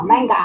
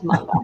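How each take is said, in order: First: Manga said the Western way, flat A like "man"; anglicised pronunciation. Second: Manga with open AH vowels, "mahn-gah"; Japanese pronunciation. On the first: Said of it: "But no, it's manga". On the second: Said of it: "Oh, manga". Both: Shown as a demonstration.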